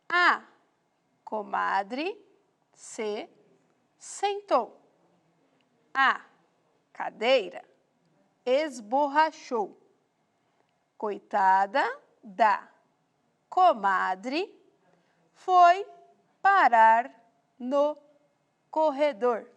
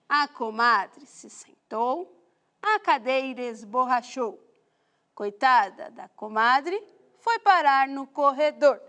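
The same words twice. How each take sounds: First: It is read at a slower pace. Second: It is read at a faster pace.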